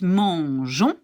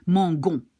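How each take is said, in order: First: "mangeons" with a zh sound, drawn out; soft G. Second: "mangon" with a g as in go; wrong hard G. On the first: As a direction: soften the g in "mangeons" to zh. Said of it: "So to keep it". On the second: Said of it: "which is not right". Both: Shown as a demonstration.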